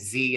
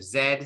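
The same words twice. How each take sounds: First: The letter is pronounced 'zee', American style. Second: The letter is pronounced 'zed', British style. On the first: "pardon my uh, American English, always saying Z" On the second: "instead of Z"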